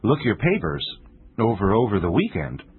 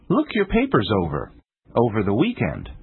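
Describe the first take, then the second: First: The pause falls somewhere other than between the overs. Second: There is a pause between the two overs.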